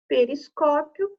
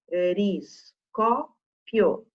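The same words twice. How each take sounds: First: Said in the usual way. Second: "periscópio" dito pe-ris-có-pio, bem devagar; separando sílabas. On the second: Shown as a demonstration. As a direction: separe cada sílaba de "periscópio" com pausas. ("periscópio" silabado lentamente) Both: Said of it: "Se eu separar sílabas".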